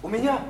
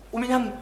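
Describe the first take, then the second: No difference in how they are said.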